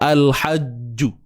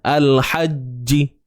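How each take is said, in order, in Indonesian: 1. Bunyi j terakhir diikuti vokal u. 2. Bunyi j terakhir diikuti vokal i. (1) "Kita jelaskan bunyi ju tu, tak mau" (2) "Baris bawah"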